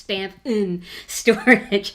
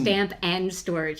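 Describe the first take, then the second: First: The middle word is reduced to 'n'. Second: The middle word is a full 'and'. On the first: The speaker calls it right. "So just stamp and then the n storage" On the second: The speaker calls it wrong. "It's not"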